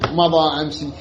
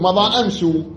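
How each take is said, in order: First: The last word ends with an i vowel. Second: The last word ends with a u vowel. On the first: This is the form this tribe does not use. "ما تقول مثلا مضى أمسي" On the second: This is the form one Tamim clan uses. "تقول مضى أمسو"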